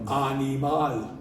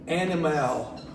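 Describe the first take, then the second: First: It is said with Spanish vowels and sounds. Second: It is said with English vowels and sounds. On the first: The speaker calls it right. "no, animal" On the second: The speaker calls it wrong. "we want to say that English pronunciation"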